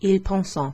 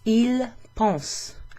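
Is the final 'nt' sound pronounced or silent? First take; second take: pronounced; silent. First: The final nt sound is pronounced. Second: The final nt sound is silent. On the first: The speaker calls it wrong. "you don't say ils pensent" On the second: The speaker calls it right. "You don't pronounce the E N T"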